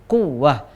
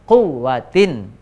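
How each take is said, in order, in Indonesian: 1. Kata ini berakhir dengan bunyi h. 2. Kata ini berakhir dengan akhiran -tin. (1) "karena kita baca terakhir waqaf maka berhenti ha" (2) "kalau kita lanjut maka bacanya wala quwwatin"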